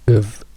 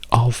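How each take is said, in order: First: The vowel is reduced to a weak sound. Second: The vowel is full and clear. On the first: "diventa of" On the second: "la O di of"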